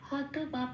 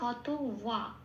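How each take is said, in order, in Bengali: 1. দ্বিতীয় শব্দটি 'b' ধ্বনি দিয়ে শুরু হয়। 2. দ্বিতীয় শব্দটি 'w' ধ্বনি দিয়ে শুরু হয়। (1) "এটা আমি বাংলায় বললাম" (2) "এটাকে ঠোঁট খুলে ওয়া বলে উচ্চারণ করতে হয়"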